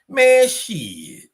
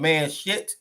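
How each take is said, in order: First: The words linger with a trailing pause between. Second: The words run together without lingering.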